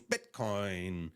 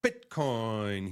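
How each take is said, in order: First: Bitcoin with the stress pushed oddly, said low and soft; Trump's odd stress. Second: Bitcoin repeated with the stress misplaced; odd stress again. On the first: Streamer mimicking Trump's odd Bitcoin stress, lightly. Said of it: "he's got the wrong emphasis on the wrong syllable". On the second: Streamer repeating Trump's Bitcoin, mock stress. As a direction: echo Trump's strange Bitcoin. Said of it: "He says it really strange". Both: Retold or imitated.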